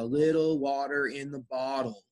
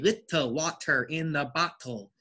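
First: The T sounds are softened and nearly silent. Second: The T sounds are pronounced clearly and fully. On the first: The speaker calls it right. "So very good, a little water in the bottle. So remember, silent T" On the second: The speaker calls it wrong. "The mistake I hear is when people say little water in the bottle. It is not pronounced like that"

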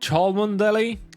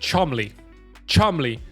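First: Every written syllable of the name is pronounced. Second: The name is shortened to two syllables. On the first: The speaker calls it wrong. "Jak się czyta tą miejscowość pod Liverpoolem?" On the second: The speaker calls it right. "Gdzie są te litery, gdzie one poszły?"

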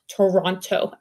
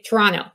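First: The second T sound is pronounced. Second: The second T sound is dropped. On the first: This is not how locals say it. "not Toronto" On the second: This is how locals say it. "we don't pronounce the second T. We drop it"

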